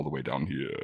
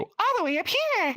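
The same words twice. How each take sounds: First: Low, quick voice-range demo. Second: Much higher, different-sounding voice; high voice demo. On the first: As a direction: show the bottom of your range quickly. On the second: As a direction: jump to the top of your range. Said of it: "all the way down here". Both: Shown as a demonstration.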